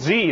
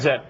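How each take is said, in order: First: The letter is said as 'zee', rhyming with 'see'. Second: The letter is said as 'zed', rhyming with 'bed'. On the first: This is the American way of naming the letter. "you got to remember to say Z. You've got to Americanify" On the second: This is the non-American way of naming the letter. "It's Zed"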